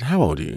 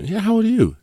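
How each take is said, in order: First: Said in the usual way. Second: Put-on much higher, sing-song how old are you?; childish mock echo. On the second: [name] taunts his costar by echoing how old are you? in a mocking high voice. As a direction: squeak you back like a taunting kid. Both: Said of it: "I said".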